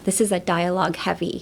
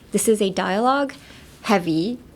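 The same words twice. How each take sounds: First: Dialogue heavy flows together without a break. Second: There is a break right before heavy. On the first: The speaker calls it right. "スーッと言ってほしいですね。だから、... って言います。" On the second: The speaker calls it wrong. "heavy の前に切らないでほしい ... とは言わないです。"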